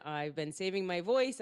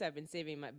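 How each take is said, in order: First: Said in the usual way. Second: Softer, sparing her voice; saving her voice. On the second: Shown as a demonstration. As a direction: say it softly to spare the voice.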